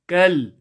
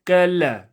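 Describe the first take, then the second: First: The L is held steady without a bounce. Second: The L ends with an added bouncing release. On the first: The speaker calls it right. "No qalqala on the lam" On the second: The speaker calls it wrong. "It's not كلا. Very, very uh, common mistake"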